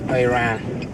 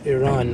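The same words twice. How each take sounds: First: The first vowel sounds like 'eye'. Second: The first vowel sounds like 'ee'. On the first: It sounds like the name of a gadget. The speaker calls it wrong. "not an Apple device" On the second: It names the country. The speaker calls it right. "It's a country"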